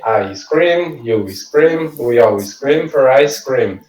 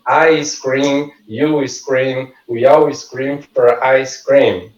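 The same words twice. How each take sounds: First: Said in the usual way. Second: I scream, you scream said slowly, word by word; a slow practice read of the twister; slow tongue twister. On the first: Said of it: "vai treinar". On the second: Shown as a demonstration. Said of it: "Essa frase".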